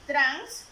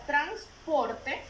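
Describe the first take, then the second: First: Teacher sounding out "transporte" in three detached beats; syllable by syllable. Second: Said in the usual way. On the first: Shown as a demonstration. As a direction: punch the first syllable of "transporte" loudly, then place the other two separately. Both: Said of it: "¿Cuántas sílabas tenemos?".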